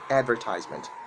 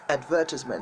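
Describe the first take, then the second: First: It is said in an American accent. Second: It is said in a British accent. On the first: "make sure you put the R sound on it. That's how you sound American" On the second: "The word is called advertisement"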